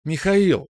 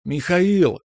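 First: Put-on high, ringing girl's voice; bright-toned girlish call, pitched well up. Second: Put-on high, long-held girlish call; singing out a name to summon someone; drawn-out call. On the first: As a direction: ring the name out high. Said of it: "прозвенела девушка". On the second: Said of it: "С протяжным зовом". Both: A narrator's reading.

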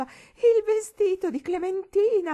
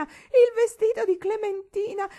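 First: Much higher, louder, slow tearful wail; weeping shout. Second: Even higher, louder, slow sobbing shriek; weeping shriek. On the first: Old lady mourning the dress, shrieking tearful wail. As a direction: wail it out in hysterical grief. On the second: Old lady mourning the dress, higher shrieking wail. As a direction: shriek the repeat, grief climbing. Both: A narrator's reading. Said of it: "Piangendo, la vecchia signora gridava".

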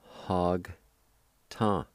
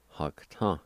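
First: "Hog, ta" as two isolated syllables with a long gap; syllable-by-syllable pronunciation. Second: "Hog ta" run together as one word; natural-speed "Hog ta"; joined-up pronunciation. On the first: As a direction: sound out "Hog", pause, then "ta". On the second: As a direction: blend "Hog ta" without a break. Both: Shown as a demonstration. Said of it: "pronounce the G sound with the H A like this".

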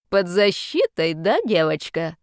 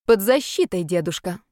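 First: Displeased. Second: Bold. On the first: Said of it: "спросил он недовольно". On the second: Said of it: "смело сказала подросток". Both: Acted.

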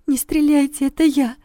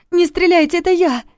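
First: High trembling plea; terrified pleading hostage. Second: High loud plea without tears. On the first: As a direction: beg him not to shoot. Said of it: "дрожащим голосом попросила". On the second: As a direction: shout for him not to shoot. Second Yulia pleads, not crying. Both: Acted.

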